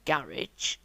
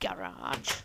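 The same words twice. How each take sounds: First: It is said with a British pronunciation. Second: It is said with an American pronunciation.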